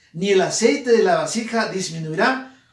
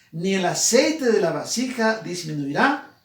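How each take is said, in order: Both takes have the same delivery.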